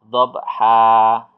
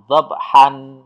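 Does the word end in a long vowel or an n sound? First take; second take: long vowel; n sound. First: The word ends with a long a vowel. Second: The word ends with an n sound. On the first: The speaker calls it right. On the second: The speaker calls it wrong.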